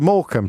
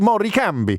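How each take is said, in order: First: The name is said in a plain English accent. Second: The name is said in an Italian accent.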